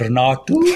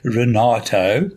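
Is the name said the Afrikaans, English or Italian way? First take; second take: Afrikaans; English. First: The name is said with an Afrikaans accent. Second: The name is said with an English accent.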